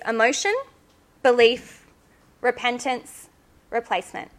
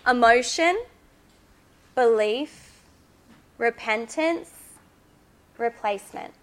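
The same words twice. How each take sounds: First: The list is said at a normal pace. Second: The list is said slowly.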